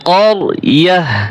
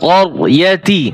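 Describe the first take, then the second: First: The word ends with an h sound. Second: The word ends with a ti sound. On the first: The reader stops at this word. "গোলতা ওয়াকফ করলে হা উচ্চারণ হবে" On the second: The reading continues without stopping. "তা জের তি"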